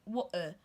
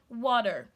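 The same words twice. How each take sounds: First: The T is replaced by a glottal stop. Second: The T is replaced by a D sound. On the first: "It's like you're stopping the T there in your pronunciation" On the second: "You turn your letter T sound to D"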